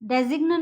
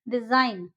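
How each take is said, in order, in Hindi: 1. n से पहले g की आवाज़ बोली जाती है। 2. g silent है; यह sine की तरह खत्म होता है।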